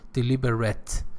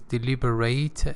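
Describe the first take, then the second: First: It is pronounced as the adjective form. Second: It is pronounced as the verb form. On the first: It describes something done on purpose. "If it were an adjective, it would be pronounced as deliberate" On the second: It means to think over or consider. "it is a verb, so it is deliberate"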